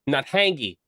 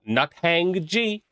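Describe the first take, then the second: First: The name is said quickly, run together. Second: The name is said slowly, in separate parts.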